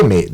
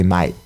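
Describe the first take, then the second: First: Said in the usual way. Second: "mate" said with an Australian "my" vowel; Aussie "mate" as "mite". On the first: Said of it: "They say mate". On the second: Shown as a demonstration. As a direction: say "mate" like an Aussie, rhyming with "might". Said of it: "they don't say mate".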